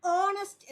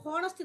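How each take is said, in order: First: ഓണസ്റ്റ് opening straight on the vowel, with a silent h; correct pronunciation. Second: ഹോണസ്റ്റ് with a sounded h; ഹോണസ്റ്റ്, h pronounced; wrong pronunciation. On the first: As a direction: say ഓണസ്റ്റ് with no h, clearly and a little louder. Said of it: "യഥാർത്ഥ pronunciation". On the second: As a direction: say ഹോണസ്റ്റ് breathing an h first. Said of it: "അതിൻ്റെ യഥാർത്ഥ pronunciation". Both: Shown as a demonstration.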